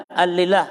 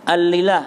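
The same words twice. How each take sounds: The two takes are said the same way.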